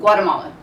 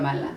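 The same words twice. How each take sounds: First: It is said with an American English accent. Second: It is said with a Spanish accent. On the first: The speaker tries to fit in with Americans. The speaker calls it wrong. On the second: The speaker shows pride in the homeland. The speaker calls it right.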